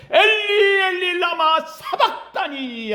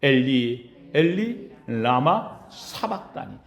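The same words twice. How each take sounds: First: Loudest cry. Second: Low, slow, grieving cry of the cross; anguished cry, low. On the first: Pastor voicing Jesus's loudest cry to God, high shout. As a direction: cry it out to heaven at full voice. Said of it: "가장 큰 소리로 하나님 앞에 외치는 소리". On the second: Pastor voicing Jesus's cry on the cross, low and anguished. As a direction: draw it out low and heavy. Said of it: "가장 처절하게 외쳤던 말씀". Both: Retold or imitated.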